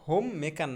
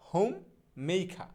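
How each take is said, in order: First: Said in the usual way. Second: হোম, pause, মেইখা with aspirated "kha" and no r; slow model pronunciation. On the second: Shown as a demonstration. Teacher modelling homemaker for learners, হোম মেইখা in slow parts. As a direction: separate হোম and মেইখা, glide "mei", open আ ending. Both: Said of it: "হোম মেকার না".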